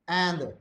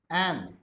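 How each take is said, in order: No difference in how they are said.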